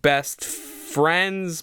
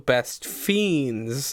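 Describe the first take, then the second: First: The second word has a clear R sound. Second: The second word has no R sound. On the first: The title names friends. "it's like Best Friends" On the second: The title names fiends. "but also Best Fiends"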